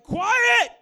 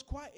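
First: Very loud, high-pitched shouted command; full yell. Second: Said in the usual way. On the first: Acted. Jesus yelling out to the storm, full shout. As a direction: bellow it, sudden and high. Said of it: "He yells out to the storm". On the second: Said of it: "and he yells".

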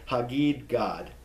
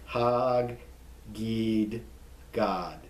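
First: Said in the usual way. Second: "Hagid Gad" split into hag, gid, gad; slow, drawn-out syllables with pauses on "Hagid Gad"; every consonant pronounced. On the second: Shown as a demonstration. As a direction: sound out both g's in "Hagid", then "Gad". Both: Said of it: "You pronounce every consonant there".

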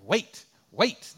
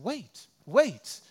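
First: Loud, mechanical robot voice, rising at the end; imitating the crosswalk box he hates. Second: Higher, lightly British lady's wait, falling; a hint of a polite British lady; lightly imitated British woman at the crosswalk. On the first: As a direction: bark it like a crosswalk machine. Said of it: "That's the voice I hear". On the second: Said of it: "sounded like a British lady".

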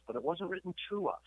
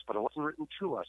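First: "to" hit hard, higher pitch; stress on TO. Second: "to" stressed again, slightly less high. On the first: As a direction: punch the word "to". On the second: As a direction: lean on "to" again. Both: Shown as a demonstration. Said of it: "let me just say that one more time".

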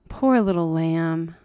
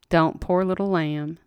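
First: Soothing, slow. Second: Put-on slow hushing comfort to a crying girl; soothing, slow. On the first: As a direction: croon it like to a hurt child. Aunt soothing hysterical girl. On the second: Aunt hushing a sobbing girl, slow and tender. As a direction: soothe her gently, drawn out. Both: A narrator's reading.

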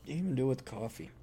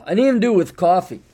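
First: Soft, quick aside to oneself; muttered repeat. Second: Louder, higher, quick "didn't even do it with coffee"; "coffee" protested briskly and loudly; emphatic complaint. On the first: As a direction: drop the voice and mumble it quickly. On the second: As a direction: push "didn't even do it with coffee" out with raised pitch. Same complaint said louder, then muttered. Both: Real, not acted.

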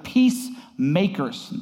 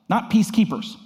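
First: Peacemakers drawn out slowly and firmly; the good word Peacemakers stretched out, set against the other; stress on Peacemakers. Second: Peacekeepers pitched up high with a push of volume; stress on peacekeepers. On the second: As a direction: punch peacekeepers up high to set it apart. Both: Real, not acted.

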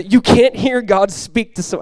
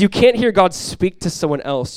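First: Slow, loud, high-pitched declaration; lofty, drawn-out quotation, pitched high; dramatic emphatic quote. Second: Slower, raised, deliberate quotation; measured emphasis, pitched up and louder; emphatic quote. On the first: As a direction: proclaim it slowly with big emphasis. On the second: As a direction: quote it slowly and firmly. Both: Acted. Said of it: "I just had to say it like that".

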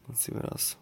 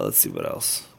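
First: Whispered to himself, much softer. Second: Said in the usual way. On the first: Real, not acted. Musing aloud to his viewers, in a whisper. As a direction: breathe it to yourself under your breath.

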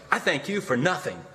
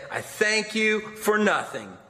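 First: Said in the usual way. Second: I thank you for nothing, slow and higher with stress on for; slow deliberate repeat. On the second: A narrator's reading. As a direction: repeat it slowly, leaning on for. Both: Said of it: "I said".

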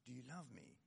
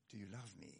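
First: The same question dropped almost to a hush; quieter still. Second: A soft, gentle question to Peter, said low and quiet; tender question. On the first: Jesus asking Peter a second time, hushed. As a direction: let it fade to near silence. Jesus asks again, softer. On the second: Preacher voicing Jesus asking Peter, soft and gentle. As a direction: ask it quietly, as if it matters deeply. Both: Retold or imitated.

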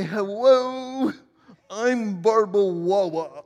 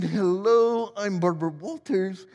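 First: Gilda Radner as Barbara Walters saying "Wawa"; Barbara Walters lisp. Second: Said in the usual way. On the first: Retold or imitated. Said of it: "she would say". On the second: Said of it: "Instead of saying".

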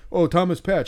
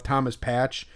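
First: Higher, louder mock gush over the name "Thomas Patch"; mock an autograph hunter, "Oh, Thomas Patch"; mock eager fan. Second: Said in the usual way.

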